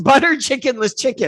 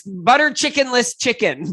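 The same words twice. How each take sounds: First: Repeats the made-up dish through a laugh; chuckles at her own silly word. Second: Said in the usual way. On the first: Shown as a demonstration. Tickled by her own dish name, laughing through it.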